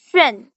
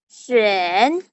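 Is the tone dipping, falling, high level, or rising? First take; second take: falling; dipping. First: The pitch falls sharply from high to low. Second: The pitch dips low then comes up. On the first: "Nada empat itu" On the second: "Nada ketiga itu jadi"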